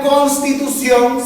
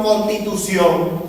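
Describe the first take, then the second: First: "constitución" with the S after the N fully sounded, "cons-titución"; loud, slow "constitución", keeping the S in "cons"; S after N pronounced. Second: "constitución" without the first S, as "contitución"; slow "constitución" with the S after N left out; S after N dropped. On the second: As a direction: say "constitución" as "con-titución". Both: Shown as a demonstration. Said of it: "no pronunciar las eses que siguen a la N".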